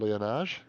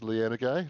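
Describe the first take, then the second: First: The name is pronounced as Leonage. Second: The name is pronounced as Lianagay. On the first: The speaker calls it wrong. "not Leonage" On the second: The speaker calls it right. "it is Lianagay"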